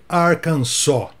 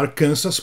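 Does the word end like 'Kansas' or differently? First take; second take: differently; like Kansas. First: The ending does not sound like Kansas. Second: The ending sounds like the word Kansas. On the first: The speaker calls it right. "Os americanos pronunciam esse nome" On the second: The speaker calls it wrong. "todo mundo fala Arkansas porque tem o estado do Kansas também"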